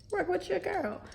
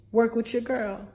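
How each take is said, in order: First: Much higher and softer plea; high coaxing repeat. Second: Said in the usual way. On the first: Acted. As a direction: coax them in a small high voice. Pleading with pupils, second take.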